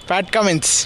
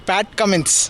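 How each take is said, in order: The two takes are said the same way.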